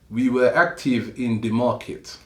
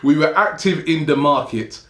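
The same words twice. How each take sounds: First: It is spoken with an imitated French accent. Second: It is spoken in the speaker's normal accent. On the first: "I'm going to try to do the accent. ... Crappy French accent" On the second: "I'm not even going to do a French accent"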